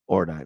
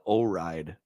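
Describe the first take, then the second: First: The name is said in three syllables, 'or-dee-nay'. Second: The name is said as two words, 'oh ride'. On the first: The speaker calls it right. "that's how I would say it, Ordine" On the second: The speaker calls it wrong. "I always called it O Ride because I can't"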